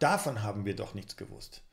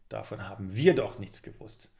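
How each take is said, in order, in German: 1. Die Betonung liegt auf dem Wort davon. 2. Die Betonung liegt auf dem Wort wir.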